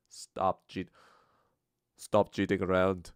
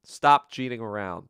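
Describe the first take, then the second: First: Lightly put-on Indian accent. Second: Said in the usual way. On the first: Shown as a demonstration. Trying the Russell Peters thing, a tentative Indian accent. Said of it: "my Indian accent".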